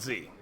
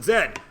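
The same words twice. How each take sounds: First: The letter name is said the American way. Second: The letter name is said the non-American way. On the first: "Only the Americans call it Z" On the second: "Everyone else calls it Z"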